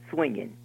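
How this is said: It is said in a South Georgia accent.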